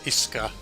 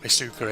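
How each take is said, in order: First: The middle 'u' is barely pronounced or dropped. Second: The middle 'u' is clearly pronounced and emphasized. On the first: The speaker calls it right. "You don't put so much emphasis on the U" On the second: The speaker calls it wrong. "it's not Isuka"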